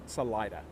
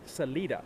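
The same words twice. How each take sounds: First: The word gets a local English-style pronunciation. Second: The word gets a Spanish-style pronunciation. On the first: "the locals refused to say the word Salida. It was Salida" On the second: "the Spanish word for exit, which is actually salida, and that is the correct pronunciation"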